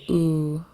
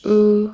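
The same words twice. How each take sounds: First: The long vowel is said on a low pitch. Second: The long vowel is said on a high pitch.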